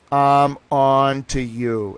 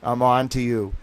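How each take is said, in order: First: Slower, louder, each word drawn out; slow knowing threat, said to the companies; slow menacing repeat. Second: Said in the usual way. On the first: Retold or imitated. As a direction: lean in slowly on "I'm on to you". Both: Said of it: "I'm like".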